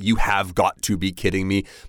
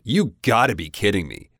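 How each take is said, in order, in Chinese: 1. 单词 have 读得完整。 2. 单词 have 完全省略不读。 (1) "so you could say you have got to be kidding me" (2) "even the V-E, you can drop that and it would be fine"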